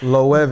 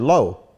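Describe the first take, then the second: First: It is said with a v sound near the end. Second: It is said as one syllable ending in a vowel. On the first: The speaker calls it right. "the W is a V" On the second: The speaker calls it wrong. "I think I was calling the shit low"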